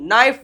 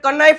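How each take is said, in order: First: The word starts with an n sound. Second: The word starts with a k sound. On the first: The speaker calls it right. "નાઈફ વચાય છે" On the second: The speaker calls it wrong. "આને કનાઈફ નથી વાંચતું"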